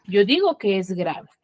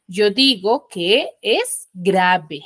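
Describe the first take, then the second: First: Said in the usual way. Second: Slow, word by word for the class; slow emphatic. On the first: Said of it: "teacher repeats the rule". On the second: Shown as a demonstration. Teacher to her class, giving the rule slowly and deliberately. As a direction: spell out the rule slowly to the pupils. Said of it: "teacher stressing the rule".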